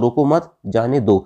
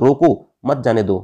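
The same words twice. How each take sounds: First: There is a pause after the second word. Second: There is a pause after the first word. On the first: Do not stop the person; let them go. "अगर रोको मत के बाद लगा दूंगा" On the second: Stop the person; do not let them go. "अगर रोको के बाद लगा दूंगा"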